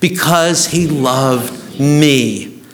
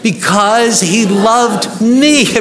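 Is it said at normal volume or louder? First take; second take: normal; louder. First: It is said at normal volume. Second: It is said more loudly.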